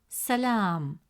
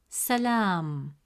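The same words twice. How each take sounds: Both takes have the same delivery.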